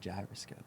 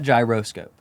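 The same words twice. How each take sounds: First: It is said with the speaker's Texan pronunciation. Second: It is said with a non-Texan pronunciation. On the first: "I'm from Texas, and so when I say gyroscope, I say gyroscope" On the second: "not gyroscope"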